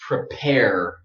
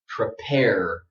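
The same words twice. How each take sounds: First: American accent with a strong final R. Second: The same.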